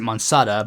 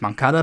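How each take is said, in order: First: The middle consonant is an s sound. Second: The middle consonant is a k sound. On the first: This is how the speaker has always said it. "I've always pronounced it Monsada" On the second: This might be the actual pronunciation. "I guess it might be pronounced Moncada"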